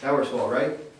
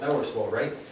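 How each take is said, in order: First: It ends rising, like a real question. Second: It ends firmly, like an exclamation. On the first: The speaker sounds unsure of the answer. The speaker calls it wrong. "Instead of" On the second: The listener is led to agree. The speaker calls it right. "say that with an exclamation point"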